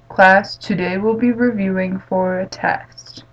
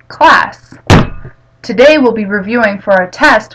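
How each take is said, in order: First: The voice is flat with unvaried pitch. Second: The voice is lively with varied pitch. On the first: The listeners stop paying attention. The speaker calls it wrong. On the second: The listeners stay attentive. The speaker calls it right.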